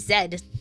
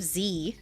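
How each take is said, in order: First: The letter is pronounced zed. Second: The letter is pronounced zee. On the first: "That's like putting Z E D" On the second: "Just Z"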